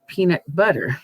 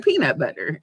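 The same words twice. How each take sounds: First: The stress is on butter. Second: The stress is on peanut.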